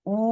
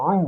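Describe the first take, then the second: First: Said in the usual way. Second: "উ" squeezed from the throat; throat-pressed sound. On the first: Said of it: "এটি স্বাভাবিক normal". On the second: Shown as a demonstration. Teacher contrasting similar letters for students, throat-squeezed "উ". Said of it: "এটি গলায় চাপ দিয়ে উচ্চারণ হয়".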